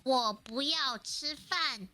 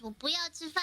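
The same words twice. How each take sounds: First: "我不要吃饭" slowly, syllable by syllable; slow "我不要吃饭" down for a learner; slowed repeat. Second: "我不要吃饭" fast and run together, a bit higher; quick Chinese phrase. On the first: Guest repeating for the host to copy, slow "我不要吃饭". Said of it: "what, say that again?". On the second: Guest showing a phrase to the host, quick "我不要吃饭". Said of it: "if I say I don't wanna eat". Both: Shown as a demonstration.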